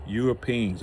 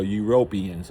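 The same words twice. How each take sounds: First: "Europeans" ending in a long "PEENS"; alternative pronunciation. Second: "Europeans" as yoo-ROPE-ee-ans; alternative pronunciation. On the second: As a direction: stress the "RO" in "Europeans". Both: Shown as a demonstration. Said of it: "or however you wanna say it".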